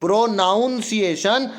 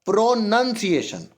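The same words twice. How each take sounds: First: प्रोनाउंसिएशन with "noun" in it; "ow" vowel in second syllable of प्रोनाउंसिएशन; wrong pronunciation. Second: प्रोनंसिएशन with short "nun"; short vowel in second syllable of प्रोनंसिएशन; correct pronunciation. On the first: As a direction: say प्रोनाउंसिएशन as "pro-noun-ciation". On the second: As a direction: say प्रोनंसिएशन as "pro-nun-ciation". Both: Shown as a demonstration. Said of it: "प्रोनाउंसिएशन नहीं होगा".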